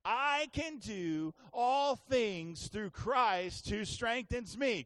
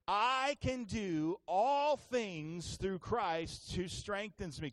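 First: Slow, loud declaration, every word punched; as loud as you can. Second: Slow, every word weighted like you mean it; with conviction. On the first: Pastor urging the congregation to say it loud, loud slow declaration. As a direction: shout it out with the whole church. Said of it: "as loud as you can". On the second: Pastor leading the church, saying it like he believes it. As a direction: declare it slowly as a firm belief. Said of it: "say it like you really believe it". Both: Shown as a demonstration.

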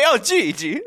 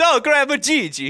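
First: High, laughing mock Gigi; high laughing imitation; laughing mock greeting. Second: High, loud mock grandkid call; high loud playful grandkid voice; mock greeting. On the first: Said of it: "you can't just say". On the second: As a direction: ham up the kid's greeting. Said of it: "it's funnier if it's".

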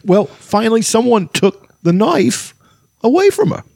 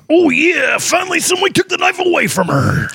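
First: High, slow voice with odd halting pauses; hammed-up halting actor impression; Christopher Walken. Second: Very high strained wrestler shout; hammed-up wrestler roar, held high all through; Macho Man Randy Savage. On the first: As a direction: break the line up oddly, leaping up in pitch. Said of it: "And that was Christopher Walken". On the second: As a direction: bellow it like a pro-wrestler cutting a promo. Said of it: "Read it like Macho Man Randy Savage".

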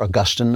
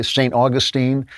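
First: "Augustine" stressed on the middle syllable; English pronunciation. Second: "Augustine" stressed on the first syllable; American pronunciation. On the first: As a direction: say "Augustine" as aw-GUS-tin. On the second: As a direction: say "Augustine" as AW-guh-steen. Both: Shown as a demonstration. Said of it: "as they say in England".

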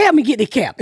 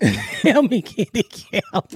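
First: Said in the usual way. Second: Slow, laughing through the punchline; laughing repeat. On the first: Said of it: "I said". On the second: Real, not acted. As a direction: crack up as you say it again.

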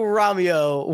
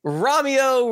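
First: The name again, dropped back near the usual voice; repeating Romeo with only a hint of theatre; lighter Romeo repeat. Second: High, lifted stage call of the name; a mock theatrical cry of Romeo; calling Romeo like a mock Juliet; hammed-up Romeo call. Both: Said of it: "Typical Shakespearean tragedy".

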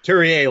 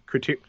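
First: Couturier said in full as koo-tur-YAY; Couturier, copying the correction; corrected pronunciation. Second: Couture- cut off, with the ending dropped; mispronounced Couturier. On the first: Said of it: "thank you". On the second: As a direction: stumble on Couture- and stop short. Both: Real, not acted.

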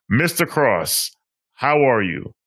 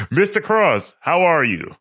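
First: Said in the usual way. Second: Much higher, big welcoming hello; excited greeting. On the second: Shown as a demonstration. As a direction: greet him like a showman. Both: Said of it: "M-, let's try this again".

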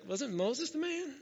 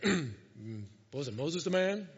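First: Higher, softer unsure question; a timid, pitched-up doubt; Joshua asking. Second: Much lower, put-on deep voice; Joshua asking. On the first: Retold or imitated. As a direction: Joshua asks softly in a high, hesitant voice. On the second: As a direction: drop into a deep, ponderous mumble. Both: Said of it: "Maybe he didn't do it like that".

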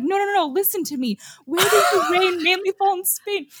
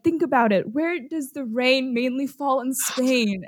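First: Insistent repeat. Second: Coaxing quiz question. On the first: Retelling the Glee boys' study scene, a mock-impatient repeat. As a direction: push the question again like a teacher losing patience. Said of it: "And he's like". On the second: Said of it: "one guy is like". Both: Retold or imitated.

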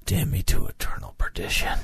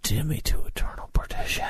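First: Whispered. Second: Fast hushed whisper; dramatic whisper. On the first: Dramatic rehearsed line. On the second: Practising a hero's curse, fast whisper. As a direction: rush the curse out in a breath. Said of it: "It's perfect". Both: Shown as a demonstration.

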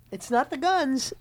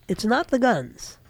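First: Said softer, GUNS falling; a soft emphatic take on GUNS; quieter repeat. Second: Said in the usual way. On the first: Shown as a demonstration. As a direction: drop the voice on it's not the guns.

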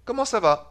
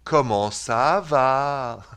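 First: Quick, higher French "Comment ça va". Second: Very slow, stretched Swiss French "Comment ça va"; Swiss French accent. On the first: Host repeats it before the Swiss version, quick French "Comment ça va". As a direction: say "Comment ça va" briskly in one go. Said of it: "That's the French way". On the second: Host teases his cousin's speech, very slow Swiss French accent. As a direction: mimic Swiss French, dragging out every syllable. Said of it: "The Swiss goes". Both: Shown as a demonstration.

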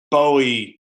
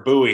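First: Bowie with a long O, as in bow tie; Bowie said BOH-ee. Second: Bowie with an OO, as in boo. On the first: Unsure of a player's name, Bowie said BOH-ee. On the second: Offering another way to say his name, Bowie as BOO-ee. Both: Real, not acted. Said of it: "however you say his name".

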